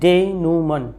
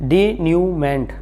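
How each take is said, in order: First: The word ends without any t sound. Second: The word ends with a clear t sound. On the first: The speaker calls it right. "इसका right pronunciation है डेनूमन" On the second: The speaker calls it wrong. "हम इसको आमतौर से गलती करते हैं इसको प्रोनाउंस करने में"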